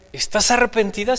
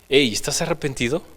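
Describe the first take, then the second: First: It is asked in a plain tone. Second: It is asked in a gentle pastoral tone.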